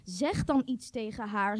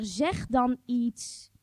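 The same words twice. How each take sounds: First: Said in the usual way. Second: Zeg dan iets said very slowly; pressing, slowed-down urge; slow insistence. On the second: Shown as a demonstration. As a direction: spell it out, word by word. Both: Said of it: "repeated urging".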